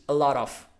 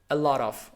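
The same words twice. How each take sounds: Both takes have the same delivery.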